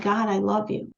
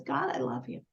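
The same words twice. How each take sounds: First: Said in the usual way. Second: Low, soft and tender, like a whispered prayer; hushed prayer. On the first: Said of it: "Why do you think she said". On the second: Retold or imitated. A grieving mother quietly telling God she loves him. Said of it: "And she says".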